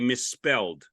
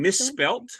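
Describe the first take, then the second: First: The word ends with a d sound. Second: The word ends with a t sound. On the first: This is the American way of saying it. "you say" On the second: This is the Australian way of saying it. "I say"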